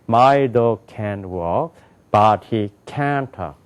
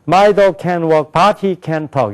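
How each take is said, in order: First: English rhythm with strong stress on can't. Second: Flat Korean-style reading with even syllables. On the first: The speaker calls it right. "이렇게 된단 말이에요" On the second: The speaker calls it wrong. "그냥 읽으면요... 그건 한국말이에요"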